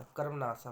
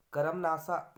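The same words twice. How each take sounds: First: Said in the usual way. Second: कर्मनाशा said loudly as 'ka-ram-naasaa'; extra vowel. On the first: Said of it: "होता है". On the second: Shown as a demonstration. Teacher showing an error, कर्मनाशा as 'karam-naasaa'. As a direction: put an 'a' between r and m in कर्मनाशा. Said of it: "नहीं होता".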